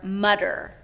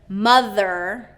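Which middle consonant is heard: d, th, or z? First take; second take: d; th. First: The middle consonant is a d sound. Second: The middle consonant is a voiced th sound. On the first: The speaker calls it wrong. "or D" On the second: The speaker calls it right. "the voiced T H sound"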